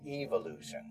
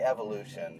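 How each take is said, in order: First: The word is said with a British accent. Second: The word is said with an American accent. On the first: "and Brits say evolution" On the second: "just Americans say evolution"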